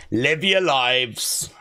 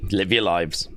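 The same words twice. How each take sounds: First: "Live your lives" slow, stretched, lower; drawn-out Big Jim. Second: A hint of a weary older man, lower; lightly voiced Big Jim. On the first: Retold or imitated. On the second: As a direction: toss off "Live your lives" lightly, lower. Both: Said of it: "Big Jim backstage right now is like".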